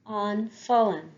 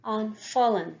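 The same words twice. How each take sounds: The two takes are said the same way.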